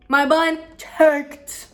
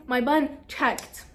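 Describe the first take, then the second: First: "My bun checked" loud, higher and very slowly drawn out; dramatic emphasis. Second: Said in the usual way. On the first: Real, not acted. Crush watched the bun check, so "My bun checked" is repeated loud and drawn out. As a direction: land each word of "My bun checked" hard and slow.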